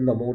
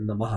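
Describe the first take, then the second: First: The word ends with an 'o' vowel. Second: The word ends with 'ah' and a breathy release. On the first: The speaker calls it wrong. "शब्द नमो नहीं" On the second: The speaker calls it right. "शब्द नमः है"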